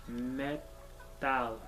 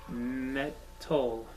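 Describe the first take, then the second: The two takes are said the same way.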